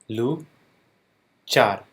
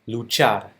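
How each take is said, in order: First: The word is split with a pause between syllables. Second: The word is said smoothly at normal speed. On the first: "then I'll break it down into syllables" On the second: "saying the word in Spanish at a normal pace"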